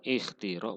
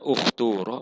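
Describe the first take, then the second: First: The long vowel is a clear i sound. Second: The long vowel is a rounded u sound. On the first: "boleh dikasrohkan" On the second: "boleh didomahkan"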